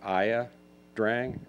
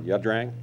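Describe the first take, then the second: First: The name begins with two syllables, 'eye-ya'. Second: The name begins with a single 'yuh' syllable. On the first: The speaker calls it wrong. "we pronounced it Aya Drang until we finally learned the actual pronunciation" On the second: The speaker calls it right. "it's actually pronounced uh"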